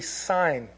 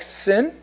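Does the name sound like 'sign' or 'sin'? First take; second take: sign; sin. First: The vowel is long, like in 'sign'. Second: The vowel is short, like in 'sin'. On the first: The speaker calls it right. "but it's actually Sign. That's how you pronounce it" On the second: The speaker calls it wrong. "it looks like Sin in the Bible"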